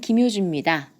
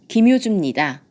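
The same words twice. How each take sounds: First: The ending sounds like a weak 'mida'. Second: The ending has a strong, clear 'nida'. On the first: The speaker calls it wrong. "이렇게 발음할 때 미다라고 나기가 쉽습니다" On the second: The speaker calls it right. "니다라고 힘을 주셔야 돼요"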